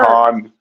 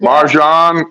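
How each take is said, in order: First: The middle consonant is an h sound. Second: The middle consonant is an English j sound. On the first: "I'm going to say Marhan" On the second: "I know I'm pronouncing this wrong"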